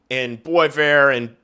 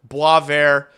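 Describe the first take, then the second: First: Said in the usual way. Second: Boisvert said the French way, like bwah-VAIR; French pronunciation. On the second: Shown as a demonstration. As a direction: correct Boisvert to the French sound. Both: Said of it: "sorry, Frenchies".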